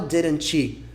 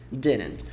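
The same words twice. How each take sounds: First: The final T is pronounced strongly. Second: The final T is pronounced very lightly. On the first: The speaker calls it wrong. "Só não fala didn't com o T forte no final" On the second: The speaker calls it right. "É um Tzinho bem leve"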